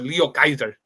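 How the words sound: The name is pronounced with Japanese sounds. The speaker calls it right. "Just say it in Japanese"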